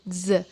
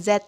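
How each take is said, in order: First: Z as a short "zuh", no final t; buzzing Z sound. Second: Z said as the alphabet name "zet"; letter-name pronunciation. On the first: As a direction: say Z with teeth together and throat vibrating. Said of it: "tapi Z". (bunyi Z bergetar, gigi atas dan bawah ditautkan) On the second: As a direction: say Z as "zet", closing on a t. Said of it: "Jadi bukan Z ya bacanya". (Z dibaca "zet" seperti nama huruf) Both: Shown as a demonstration.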